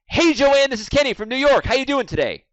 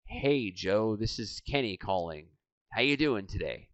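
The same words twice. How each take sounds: First: High, loud, bouncy phone greeting; over-hyped caller. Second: Soft, low phone greeting; underplay the greeting, quiet and low; low-energy caller. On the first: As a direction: blast the greeting with too much energy. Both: Acted. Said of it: "Out of rapport".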